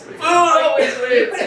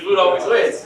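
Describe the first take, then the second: First: High, slow, laughing repeat. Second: Said in the usual way. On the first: Real, not acted. Teacher cracking up at his own food joke. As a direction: laugh the punchline out. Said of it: "laughing repeat". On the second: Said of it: "repeated punchline".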